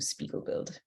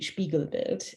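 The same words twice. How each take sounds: First: The name is said with a Canadian pronunciation. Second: The name is said with a German pronunciation.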